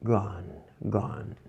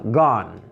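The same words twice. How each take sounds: First: Very soft, low practice repetition; reading under breath. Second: Said in the usual way. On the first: Shown as a demonstration. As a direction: say it quietly to yourself. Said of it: "Sempre ler baixinho". (lendo bem baixinho) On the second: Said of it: "falem em voz alta".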